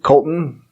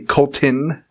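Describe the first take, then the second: First: The middle t is swallowed, not clearly pronounced. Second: The middle t is clearly and carefully pronounced. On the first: The speaker calls it wrong. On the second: The speaker calls it right.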